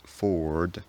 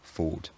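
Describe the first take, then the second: First: An r sound is heard after the vowel. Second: No r sound follows the vowel. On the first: This is a rhotic pronunciation. "I don't say" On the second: This is a non-rhotic pronunciation. "I say"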